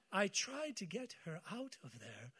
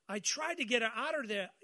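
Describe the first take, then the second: First: Said in the usual way. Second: Put-on Eastern accent. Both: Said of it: "that was an Eastern accent there".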